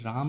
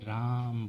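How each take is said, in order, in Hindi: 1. स्वर सामान्य, छोटी अवधि में बोला गया है। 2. स्वर को देर तक खींचकर बोला गया है। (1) "जैसे हम लोग राम नहीं बोलते" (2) "दीर्घ उच्चारण मतलब किसी चीज़ को खींच कर बोलना"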